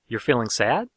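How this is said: The pitch rises at the end. It asks whether this is so. "the inflection turns up at the end of the question"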